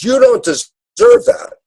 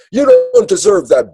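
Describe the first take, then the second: First: Higher, slow dad's verdict; a drawn-out, higher fatherly reproach; stern dad. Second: Much higher, louder parent reprimand; a high, sharp parental put-down; scolding parent. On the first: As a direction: lay it down slowly as a father. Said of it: "the dad says". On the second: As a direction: scold the child from above. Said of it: "the parent says". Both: Retold or imitated.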